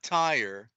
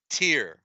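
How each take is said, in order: First: The name sounds like the word 'tire'. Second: The name sounds like 'tear', as in teardrop. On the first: The speaker calls it wrong. "everybody pronounces it as Tyre, but it's not Tyre" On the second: The speaker calls it right. "It is Tyr. T E A R, like a teardrop"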